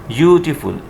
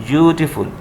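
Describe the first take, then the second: The two takes are said the same way.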